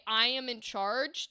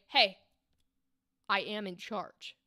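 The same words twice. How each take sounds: First: Casual claim of control, ending on a rise; plain statement. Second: Firm warning. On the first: Coach demoing the first, casual read of the line. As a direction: say I am in charge lightly, as a simple fact. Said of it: "the intent changed from a". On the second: Coach demoing the second, firmer read of the line. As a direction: assert control with a warning edge. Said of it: "to a". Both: Shown as a demonstration.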